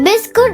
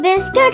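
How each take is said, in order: First: The second syllable has an 'oo' vowel. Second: The second syllable has an 'i' vowel. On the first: The speaker calls it wrong. "बिस्कुट नहीं होता" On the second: The speaker calls it right. "बिस्किट होता है"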